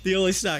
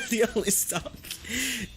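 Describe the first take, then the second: First: Said in the usual way. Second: Slow "stonk" with an n, amused; joking mispronunciation. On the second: Real, not acted. Trader joking about the only stock, "stonk" with an n. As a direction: laugh through "stonk" for stock.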